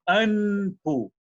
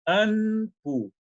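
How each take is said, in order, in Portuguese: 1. A nasal é um n, os lábios ficam abertos. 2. A nasal é um n, os lábios ficam abertos.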